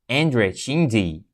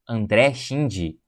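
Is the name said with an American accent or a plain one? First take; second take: American; plain. First: The name is said with an American accent. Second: The name is said without an American accent.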